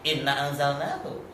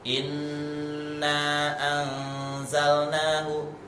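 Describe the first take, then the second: First: The nasal n sound is cut short. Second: The nasal n sound is held long. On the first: The speaker calls it wrong. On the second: The speaker calls it right.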